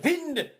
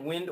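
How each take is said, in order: First: It is said in an imitated foreign accent. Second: It is said in the speaker's ordinary accent.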